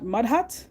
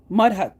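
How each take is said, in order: First: "mud hut?" with a rising question tune; puzzled question. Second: "Mud hut." with a flat falling tune; settled statement. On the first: Retelling a professor's guess at Guyana, rising question. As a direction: ask "mud hut?" as if unsure. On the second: Retelling a professor's guess at Guyana, falling statement. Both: Retold or imitated. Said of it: "she turns to me and she says".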